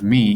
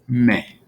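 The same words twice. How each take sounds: First: The vowel is a long English-like 'ee' sound. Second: The vowel is a short, clipped 'eh' sound. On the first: The speaker calls it wrong. "instead of me" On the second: The speaker calls it right. "when we see an E, it's going to be E"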